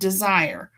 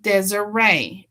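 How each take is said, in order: First: The name sounds like the word desire. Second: The name ends in a long ee sound. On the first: The speaker calls it wrong. "not Desire" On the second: The speaker calls it right. "My name sounds like Desiree"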